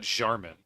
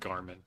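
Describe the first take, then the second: First: The name starts with a soft j sound. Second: The name starts with a hard g sound. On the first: The speaker calls it wrong. "It's not Jarmin" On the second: The speaker calls it right. "Nobody argues about Garmin"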